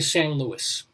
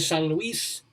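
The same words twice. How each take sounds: First: The name sounds like English Saint Louis. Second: The name has a Spanish pronunciation. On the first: Local American speakers say it this way. "they just say San Luis, like Saint Louis" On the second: A Spanish speaker would say it this way.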